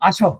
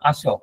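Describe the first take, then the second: First: It is said in an angry, annoyed tone. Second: It is said in a calm, friendly tone. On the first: The speaker is angry and irritated. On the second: A simple, friendly invitation to come.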